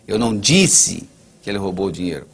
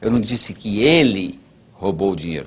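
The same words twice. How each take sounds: First: The stress is on "disse". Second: The stress is on "ele".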